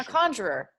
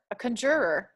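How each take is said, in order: First: "conjurer" stressed on the first syllable, KAHN-jer-er; "conjurer" with an open AH up front; preferred pronunciation. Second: "conjurer" stressed on the second syllable, kun-JUR-er; "conjurer" with a weak first syllable and strong JUR; rejected pronunciation. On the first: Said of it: "I'd say conjurer". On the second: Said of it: "I wouldn't say conjurer". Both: Shown as a demonstration.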